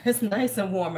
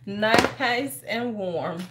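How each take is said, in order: First: Said in the usual way. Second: NICE stretched long and slow; very slow, lingering "Nice and warm"; drawn out. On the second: Real, not acted. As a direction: savor it, dragging out "Nice". Repeats it, savoring the warmth.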